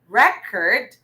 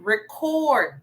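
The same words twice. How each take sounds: First: The stress is on the first syllable. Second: The stress is on the second syllable. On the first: It is the noun. "A while back we had record" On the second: It is the verb. "record, meaning it's a verb. Okay, so the syllable stress is in the second syllable"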